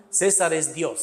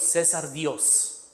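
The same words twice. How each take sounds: First: Said in the usual way. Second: César Dios drawn out slowly and a little softer; slowed way down. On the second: Shown as a demonstration. Teacher slowly repeats the inscription to students, drawn out. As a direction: spell out each word slowly for the class. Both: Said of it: "donde dice César".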